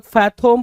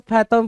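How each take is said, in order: First: FATHOM as "fa-THOME", long o; variant pronunciation. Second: FATHOM as "FA-thum", short second vowel; variant pronunciation. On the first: Teacher showing students one accepted reading, फैथम said as "fai-thome". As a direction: say फैथम with a round "o" in the second syllable, like "home". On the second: Teacher showing students the other reading, फैथम said as "fai-thum". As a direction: say फैथम with a weak "uh" in the second syllable. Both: Shown as a demonstration. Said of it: "pronunciation को लेकर बिल्कुल भी".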